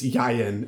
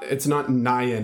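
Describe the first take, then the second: First: The word begins with a Y sound. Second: The word begins with an N sound. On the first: The speaker calls it right. "It's Yayen. It's Yod Yod Nun" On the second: The speaker calls it wrong. "it's not Nayen"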